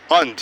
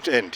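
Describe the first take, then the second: First: "And" as und; And opened like "un"; taught weak pronunciation. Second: "end" with a clear e vowel; "end" as the common Indian "and"; rejected pronunciation. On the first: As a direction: say "And" with a short uh vowel. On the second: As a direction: say it as end, open e. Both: Shown as a demonstration. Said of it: "not end".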